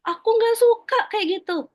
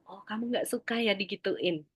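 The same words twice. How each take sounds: First: Put-on high, loud protest of a child; acted child's outburst, pitched right up; upset child. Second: Soft, calm parental echo; quiet, understanding acknowledgement; parent mirroring back. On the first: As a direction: complain like an upset kid. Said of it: "Jadi kalau dia, dia bilang". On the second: Acted. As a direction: gently reflect the child's feeling back. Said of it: "kita ulang".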